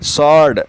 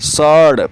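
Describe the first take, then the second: First: The W sound is left out of the word. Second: The same.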